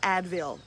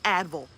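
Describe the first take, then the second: First: The word is said with its usual pronunciation. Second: The word is said sounding like anvil. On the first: The speaker calls it wrong. "It's not Advil" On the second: The speaker calls it right. "it's Advil, like anvil"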